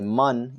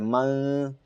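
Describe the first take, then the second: First: The n is fully pronounced with the tongue touching. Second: The n is hidden as a nasal hum. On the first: The speaker calls it wrong. "You're not going to say man" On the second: The speaker calls it right. "You're going to say man"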